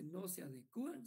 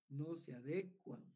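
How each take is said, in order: First: The stress falls on the 'u' syllable. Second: The stress falls on the syllable before 'u'. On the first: The speaker calls it wrong. "no se dice no se adecúan" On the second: The speaker calls it right. "sino que se dice no se adecuan"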